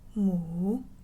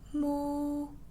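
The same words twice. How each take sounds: First: It is said in the third tone. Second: It is said in the first tone. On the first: "And number three" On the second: "That's number one"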